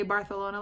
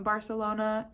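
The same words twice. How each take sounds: First: "Barcelona" with a th for the c; "Barcelona" said Bar-the-lona, Castilian style; Castilian lisp. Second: Said in the usual way. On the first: Shown as a demonstration. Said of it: "say Barcelona like that". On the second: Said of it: "people who are from Barcelona".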